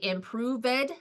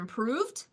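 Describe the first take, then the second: First: The -ed ending is said as an extra syllable. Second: The -ed ending adds no extra syllable. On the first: The speaker calls it wrong. "they say improved" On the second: The speaker calls it right. "instead of improved"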